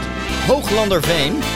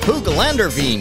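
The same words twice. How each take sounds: First: The name gets its local Dutch pronunciation. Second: The name is said like a computer voice. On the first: "this little village called" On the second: "Google pronunciation would be"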